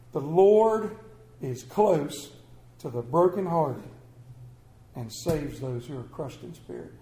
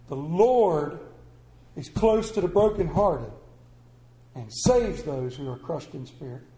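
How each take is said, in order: First: Scripture reading. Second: Verse read again, LORD lifted and then the line sinking low; scripture repeated. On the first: Preacher reading a psalm to his congregation, slow and reverent. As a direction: read the verse out like it matters, then let it fade. Reads scripture verse aloud. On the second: Preacher repeating the verse so the room remembers it, emphatic. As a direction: press the verse home the second time. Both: Acted.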